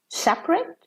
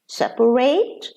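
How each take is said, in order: First: The stress falls before the final syllable. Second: The stress falls on the final syllable. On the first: It is used as an adjective. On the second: It is used as a verb.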